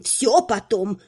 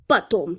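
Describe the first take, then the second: First: Всё stressed, brushing it aside; dismissive. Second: Dismissive. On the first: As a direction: hurry them off on всё. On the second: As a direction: brush it off, lower. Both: Acted. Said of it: "отмахнулась магистр".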